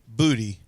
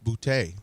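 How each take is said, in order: First: The stress is on the first syllable. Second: The stress is on the second syllable. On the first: This is how most people say the name. The speaker calls it wrong. "I hear everyone say booty" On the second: This is how the name is supposed to be said. The speaker calls it right. "the accent is on the e"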